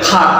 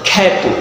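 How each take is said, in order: First: The vowel is an open 'aa' sound. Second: The vowel is an 'e'-like sound. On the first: The speaker calls it wrong. "তাহলে আ বলা উচিত" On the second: The speaker calls it right. "আমরা বলি খ্যাত। ... তাহলে এ উচ্চারণ হচ্ছে কেন"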